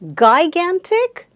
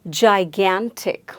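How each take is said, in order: First: The word begins with a hard G sound. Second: The word begins with a J sound. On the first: The speaker calls it wrong. "No, doesn't sound right" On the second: The speaker calls it right. "the first sound made by G here is not G, but it's the sound J"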